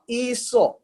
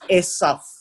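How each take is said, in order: First: The name is said in its Greek-derived form. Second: The name is said in its Hebrew form. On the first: "we are reading the Greek name of Esau" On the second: "in proper terminology or pronunciation"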